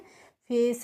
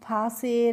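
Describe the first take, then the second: First: It is said as one syllable, face. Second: It is said as two syllables, fa-se. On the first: The speaker calls it right. "फेस, रेस, प्लेस पढ़ेंगे" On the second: The speaker calls it wrong. "ऐसे नहीं पढ़ते हैं"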